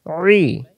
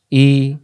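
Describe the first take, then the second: First: "রি" as pharyngeal ee, no r; squeezed ain i. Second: Clean open "ই"; "ই" without throat pressure; hamza i. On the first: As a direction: press inside the throat for "রি". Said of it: "গলার ভিতরে চাপাচাপি হবে". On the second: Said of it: "আবার এবার বানান ছাড়া". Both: Shown as a demonstration.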